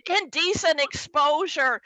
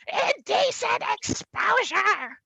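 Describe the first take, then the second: First: Said in the usual way. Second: Indecent exposure much higher and slow; outraged squeal. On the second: Retold or imitated. Dad repeating Indecent exposure, high and slow.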